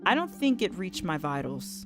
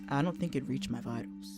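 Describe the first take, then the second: First: It is read in the speaker's natural voice. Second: It is read in a put-on male voice. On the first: The speaker calls it wrong. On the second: The speaker calls it right.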